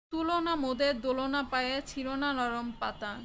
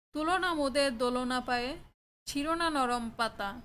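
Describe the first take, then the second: Both takes have the same delivery.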